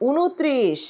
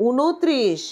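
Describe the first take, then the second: No difference in how they are said.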